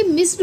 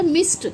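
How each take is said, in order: First: "मिस्ड" with a voiced d at the end; wrong d ending. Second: "मिस्ड" said as "mist"; correct t ending. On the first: Teacher shows what not to say, मिस्ड with d. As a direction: say "मिस्ड" as "miss-d". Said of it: "ना कि मिस्ड बोला जाता है". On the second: Teacher adds ed to miss, मिस्ड with t. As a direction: end "मिस्ड" on t, not d. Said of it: "ईडी जुड़ते के साथ ही". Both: Shown as a demonstration.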